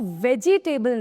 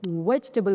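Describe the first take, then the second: First: The vowel after the j sound is fully pronounced. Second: The vowel after the j sound is dropped. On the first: The speaker calls it wrong. "इसको वेजिटेबल नहीं" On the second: The speaker calls it right. "उसकी पूरी sound नहीं लानी है आपको"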